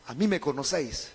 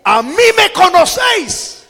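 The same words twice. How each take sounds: First: Low, very soft delivery; hushed restatement. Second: High, loud, ringing cry; raised voice. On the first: Preacher explains Jesus' words to the congregation, quiet and low. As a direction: drop right down and repeat it quietly. Same verse repeated softly for explanation. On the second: Preacher quotes Jesus crying out in the temple, raised-voice shout. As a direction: cry it out to the whole crowd. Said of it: "alzó la voz y dijo". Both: Acted.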